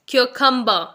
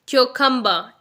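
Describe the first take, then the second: The two takes are said the same way.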